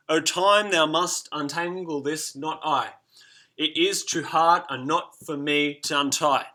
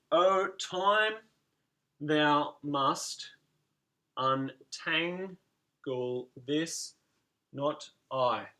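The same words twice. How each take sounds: First: Measured verse reading; recited verse. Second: Spaced out and counted; syllable by syllable. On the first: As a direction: read the line aloud as verse, slow at thou must untangle this. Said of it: "look at the T here". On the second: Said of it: "we can put the dots and dashes in". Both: Shown as a demonstration.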